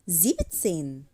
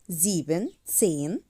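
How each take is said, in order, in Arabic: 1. الجزء الأول يُختصر إلى sieb. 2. الجزء الأول يُقال كاملاً مثل sieben. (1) "هنقول زيبتسين" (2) "مش هنقول زيبن تسين"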